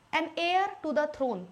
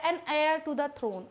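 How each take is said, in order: First: "heir" said like air with no h sound; slow model "an heir to the throne", h silent. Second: "heir" said as air, no h; "An heir to the throne" slowly, h dropped; silent h heir. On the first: Teacher modelling silent h in "heir" slowly. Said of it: "इस एच को pronounce नहीं कर रहा है". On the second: Teacher slowly modelling "heir" for the class. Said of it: "an heir भी कई लोग से सुनोगे". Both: Shown as a demonstration.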